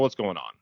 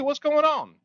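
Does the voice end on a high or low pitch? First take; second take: low; high. First: Flatter tone, ending on a lower pitch. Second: Upbeat tone, ending on a higher pitch. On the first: The speaker comes across as less friendly and more confrontational. The speaker calls it wrong. "I said the same words, but that tone is going to register differently" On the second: The speaker is friendly, open and wants to talk. The speaker calls it right. "My tone is upbeat. It's a little higher pitch. I end on a higher pitch"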